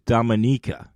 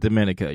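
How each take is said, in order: First: The stress is on the third syllable. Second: The stress is on the second syllable. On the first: The speaker calls it right. "The correct pronunciation is Dominica" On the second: The speaker calls it wrong. "It's not Dominica"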